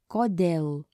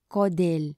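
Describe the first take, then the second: First: Kodėl with a clear open e, kɔdɛl; kodėl said cleanly, second vowel a full open e; correct pronunciation. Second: Kodėl said with a lax short i, kɔdɪl; kodėl with the second vowel clipped to a short i; wrong pronunciation. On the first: Teacher modelling the correct kodėl. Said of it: "And the correct way is". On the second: Teacher showing the incorrect kodėl. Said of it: "Incorrect way to pronounce this is". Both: Shown as a demonstration.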